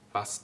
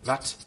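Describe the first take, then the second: First: The word ends with an S sound. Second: The word ends with a T sound. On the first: This is the standard German form. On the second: This is the Low German form.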